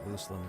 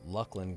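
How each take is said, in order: First: The first vowel is long, as in lucid. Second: The first vowel is short, as in luck. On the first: This is how someone from the company said it. "which kind of makes sense because then you think of lucid" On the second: This is how it was said growing up. "We used to say Lucklin growing up"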